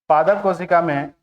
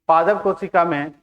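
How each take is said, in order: Both takes have the same delivery.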